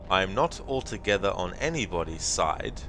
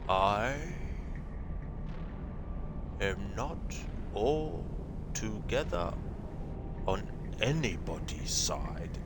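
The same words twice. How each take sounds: First: It is spoken at an ordinary, normal pace. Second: It is spoken very slowly and deliberately.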